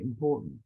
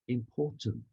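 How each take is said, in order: First: The T in the middle is dropped. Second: The T in the middle is clearly pronounced. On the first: The speaker calls it wrong. "Most Americans will say important. No enunciation of the T at all" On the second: The speaker calls it right. "Did you hear how I said important?"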